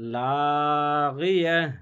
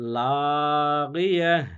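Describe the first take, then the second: First: The word ends in a silent 'h' stop. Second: The same.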